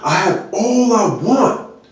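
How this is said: It sounds upset and irritated.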